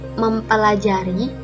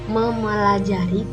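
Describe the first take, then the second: First: The p sound after 'mem' is kept. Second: The p sound after 'mem' is dropped. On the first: The speaker calls it right. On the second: The speaker calls it wrong.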